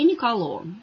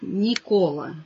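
First: The name ends in an o sound. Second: The name ends in an a sound. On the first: The original Italian form of the name. The speaker calls it right. "в итальянском языке Николо. И называют правильно именно так" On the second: The usual Russian rendering of the name. The speaker calls it wrong. "На русском языке всегда можно услышать Никола"

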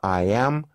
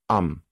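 First: It is said as two full words. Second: It is said as one contracted syllable. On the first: "форма I am" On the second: "краткая"

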